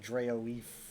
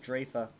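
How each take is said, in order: First: The name ends in an 'eef' sound. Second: The name ends in an open 'ah' vowel. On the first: The speaker calls it wrong. "I always read it as like Draoeef, which never sounded good to me" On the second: The speaker calls it right. "it's pronounced Drafa"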